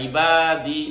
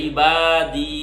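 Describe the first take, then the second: The two takes are said the same way.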